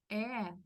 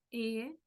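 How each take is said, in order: First: E opened wide, like "eh". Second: E said closed, as in Spanish "e". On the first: Teacher recalls the two E sounds, open E. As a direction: say E with the mouth more open. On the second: Teacher recalls the two E sounds, closed E. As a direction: say a closed, held E. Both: Shown as a demonstration. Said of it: "Tal como nosotros vimos la letra E".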